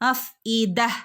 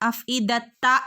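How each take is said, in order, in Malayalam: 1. വാക്ക് മൃദുവായ h ശബ്ദത്തിലാണ് അവസാനിക്കുന്നത്. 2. വാക്ക് വ്യക്തമായ t ശബ്ദത്തിലാണ് അവസാനിക്കുന്നത്. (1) "അഫ് ഇദ എന്ന് പറഞ്ഞ് നിർത്തണം" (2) "അഫ് ഇദത്ത എന്ന് പറഞ്ഞ് നിർത്തരുത് കേട്ടോ"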